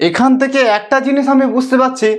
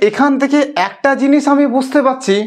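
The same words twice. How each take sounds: The two takes are said the same way.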